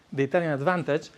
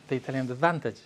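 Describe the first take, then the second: No difference in how they are said.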